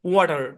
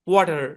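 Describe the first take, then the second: Both takes have the same delivery.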